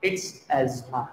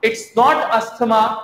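First: Asthma said "az-ma" with a silent th, lower and soft; correct pronunciation. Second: Asthma said "ast-ma" with a clear t, higher and slow; the mistaken t sound in asthma, pitched up; wrong pronunciation. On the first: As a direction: drop the th in asthma, say it softly and low. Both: Shown as a demonstration.

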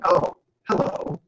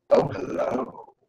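First: Slow, meek little hello; meager greeting. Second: Very slow, hushed, drawn-out hello; contrasting knowing greeting. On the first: Teacher showing a meager greeting into the camera, meek. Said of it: "rather meagerly into the camera". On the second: Teacher showing a different tone into the camera, slow and suggestive. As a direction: stretch it out softly, loaded with meaning. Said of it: "Vastly different interpretations". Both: Shown as a demonstration.

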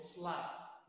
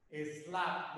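First: "slap" with no vowel before the s; "slap" starting straight on the s cluster; English monosyllable. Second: "Slap" said as es-LA; "Slap" in two syllables; Spanish two-syllable pronunciation. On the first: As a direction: say "slap" as one syllable. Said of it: "no digo slap". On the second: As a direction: add an "e" before "Slap", Spanish style. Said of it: "es un bisílabo cuando yo lo digo en español". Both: Shown as a demonstration.

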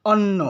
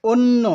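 First: অন্য mispronounced as অন্ন /ɔnː/ with an open ɔ; wrong pronunciation demo. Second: অন্য said as /onː/ with a closed o, slightly raised; correct pronunciation demo. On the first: Teacher to students, showing the common mistake with an open ɔ. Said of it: "অথচ আমরা বলি". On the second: Teacher to students, correcting to অন্য with a closed o. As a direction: say it right, with a closed o. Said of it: "বলতে হবে". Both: Shown as a demonstration.

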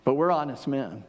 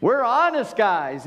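First: Said in the usual way. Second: Higher, louder, slow sarcastic honest; mock honest. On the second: Preacher mocking the brothers' claim, sarcastic. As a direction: sneer the word honest with a big fake innocence.

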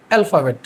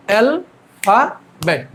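First: Said in the usual way. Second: অ্যালফাবেট broken slowly into three separate beats; syllable-by-syllable pronunciation. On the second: Shown as a demonstration. Teacher shows students how to pronounce অ্যালফাবেট, slowly syllabified. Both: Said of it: "এটার pronunciation হচ্ছে".

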